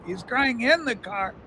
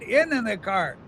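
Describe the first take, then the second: First: "in" pressed, softer line; "in" stressed as opposed to "on". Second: In the car with weight on "in"; "in" stressed against "on". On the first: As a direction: land on "in" in the car. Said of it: "not on the car". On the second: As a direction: lean on "in", not on. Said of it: "not on it". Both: Shown as a demonstration.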